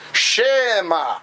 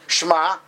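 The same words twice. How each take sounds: First: The vowel after sh is a separate syllable. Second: The vowel after sh is dropped entirely. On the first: "they do the Shva" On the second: "you're swallowing, so to speak, the shin"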